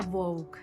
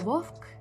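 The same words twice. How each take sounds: First: The consonant before k is a short u-glide. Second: The consonant before k is a voiceless f sound. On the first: The speaker calls it right. "переходить у нескладотворче У" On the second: The speaker calls it wrong. "не вовк"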